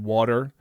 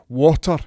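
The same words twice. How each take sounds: First: It is said in a Canadian accent. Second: It is said in a Scottish accent.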